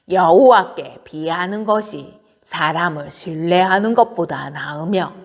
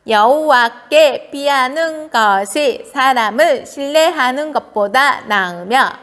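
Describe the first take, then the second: First: It is read in an old woman's voice. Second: It is read in a cute baby voice. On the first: "할머니의 목소리로 한번 해보는 거예요" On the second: "귀여운 아기 목소리로 해보는 거예요"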